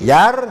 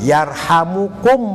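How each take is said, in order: First: It is said with three syllables, no middle vowel. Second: It is said with four syllables, with a middle vowel. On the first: Those in heaven will have mercy on you as a result. The speaker calls it wrong. "Boleh jazm" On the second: It is a prayer that those in heaven have mercy on you. The speaker calls it right. "Atau dibaca dhammah"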